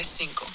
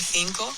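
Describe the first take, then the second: First: The first sound is a plain s. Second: The first sound is a lisped th. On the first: "but he'll say" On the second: "I'll say a lisp"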